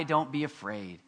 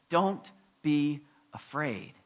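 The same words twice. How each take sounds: First: Said in the usual way. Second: DON'T, BE, AFRAID each set apart slowly; slow right down, pausing between words; slow, weighty repeat. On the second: A narrator's reading.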